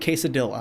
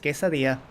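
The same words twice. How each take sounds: First: The word is said with an English-style pronunciation. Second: The word is said with a Spanish-style pronunciation. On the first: The speaker calls it wrong. "it hurts me when people say quesadilla" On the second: The speaker calls it right. "It's quesadilla"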